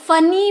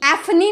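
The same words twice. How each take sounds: First: "फनी" starting straight on the f sound; correct reading. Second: "एफनी" with the letter name eff at the start; wrong reading. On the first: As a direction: say "फनी" as funny, no eff. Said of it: "फनी बोलते हैं". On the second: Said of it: "नहीं बोलते हैं". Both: Shown as a demonstration.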